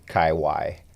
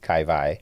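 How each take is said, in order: First: The second part starts with a W sound. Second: The second part starts with a V sound. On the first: This is how most of the rest of the world says it. "most of the other part of the world" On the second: This is how it is said coming from Hawaii. "the W is always pronounced a V"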